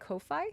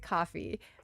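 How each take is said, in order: First: The first syllable sounds like 'koh'. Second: It sounds like the drink, coffee. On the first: "some people pronounce it Ko-fi" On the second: "I pronounce it coffee"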